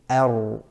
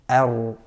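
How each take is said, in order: The two takes are said the same way.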